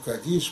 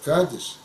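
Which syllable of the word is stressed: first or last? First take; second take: last; first. First: The stress is on the last syllable. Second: The stress is on the first syllable. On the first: This is the correct traditional pronunciation. The speaker calls it right. "но мы говорим кадиш, потому что правильно говорит кадиш" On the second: This is how the local congregation says it. The speaker calls it wrong. "который там же будет называться кадиш"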